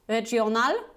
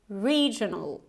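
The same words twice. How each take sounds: First: The first vowel is short. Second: The first vowel is a long E. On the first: The speaker calls it wrong. "Not regional" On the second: The speaker calls it right. "you actually have this long E"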